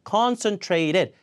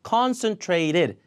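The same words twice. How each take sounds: First: The t before -ed is a flap. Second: The t before -ed is a flap.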